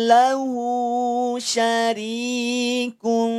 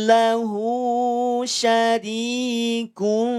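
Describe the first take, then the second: Both takes have the same delivery.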